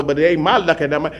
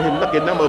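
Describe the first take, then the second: First: My punched to contrast with his; stress on my. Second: Lucky gets the weight, his stays light; his lucky number, lucky stressed. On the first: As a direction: hit my in ain't my lucky number. His lucky versus my lucky. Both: Shown as a demonstration.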